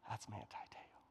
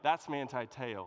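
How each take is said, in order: First: It is said in a whisper. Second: It is said aloud, excitedly.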